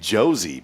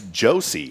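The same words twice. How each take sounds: First: The middle consonant is a buzzing Z sound. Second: The middle consonant is a hissing S sound. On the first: The speaker calls it wrong. "I've been saying Josie" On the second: The speaker calls it right. "but it's Josie"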